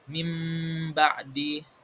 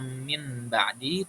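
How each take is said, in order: First: The nasal before the b sounds like m. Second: The nasal before the b sounds like n. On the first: The speaker calls it right. "kita ubah menjadi suara mim" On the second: The speaker calls it wrong. "Jadi kita nggak membacanya min ba'di"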